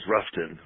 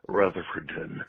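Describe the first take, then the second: First: The name is shortened to two syllables. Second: The name is said in full, four syllables. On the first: The speaker is from the area. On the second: The speaker is from out of town.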